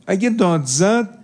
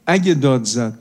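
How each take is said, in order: First: اگه داد زد said slowly with a high rising lift on اگه; emphatic slow rise. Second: Said in the usual way. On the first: Shown as a demonstration. Preacher warning youths, emphatic slow rising repeat. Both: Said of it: "اگه داد زد، repeated".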